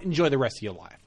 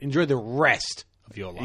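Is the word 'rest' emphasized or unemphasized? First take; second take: unemphasized; emphasized. First: The word 'rest' carries no special emphasis. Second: The word 'rest' carries strong emphasis. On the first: The speaker will no longer be part of the listener's life. "I imagine it being like you and I had a falling out" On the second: It is an imminent threat. "if you emphasize rest, then it is like an imminent threat"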